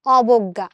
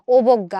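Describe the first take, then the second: First: অবজ্ঞা as "awbogga", louder, open first vowel. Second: অবজ্ঞা as "obogga", starting on close "o"; the rejected অবজ্ঞা, lips rounded for "o"; closed "o" vowel. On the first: Teacher giving the right form, অবজ্ঞা with open "aw". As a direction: begin অবজ্ঞা firmly with "ɔ" as in "law". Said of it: "আমরা কি বলি?". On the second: Teacher showing what isn't said, অবজ্ঞা with initial "o". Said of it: "আমরা কিন্তু বলি না". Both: Shown as a demonstration.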